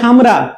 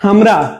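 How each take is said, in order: First: The word begins with an h sound. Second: The word begins with an h sound.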